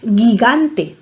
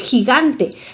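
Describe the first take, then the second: First: It starts with a hard g sound. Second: It starts with a throaty h sound. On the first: The speaker calls it wrong. "tú no dices gigante" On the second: The speaker calls it right. "tú dices gigante"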